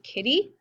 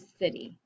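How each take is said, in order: First: The word begins with a hard K sound. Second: The word begins with a soft S sound. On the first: The speaker calls it wrong. "I don't say" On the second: The speaker calls it right. "I say"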